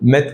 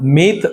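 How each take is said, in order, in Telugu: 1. అచ్చు పొట్టిగా ఉంది, 'met' లో లాగా. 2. అచ్చు పొడవుగా ఉంది, 'meet' లో లాగా. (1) "మెత్ కాదు" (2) "మీత్ అని చదవాలి"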